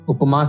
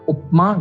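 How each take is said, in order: First: The lips open after p, then close for m. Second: The lips stay closed from p into m. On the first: The speaker calls it right. "उपमा सही है" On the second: The speaker calls it wrong. "उपमा गलत है"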